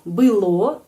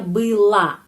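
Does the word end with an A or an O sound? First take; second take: O; A. First: The word ends with an o sound. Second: The word ends with an a sound. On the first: "Kita menulis O" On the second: "tapi pengucapannya было, A"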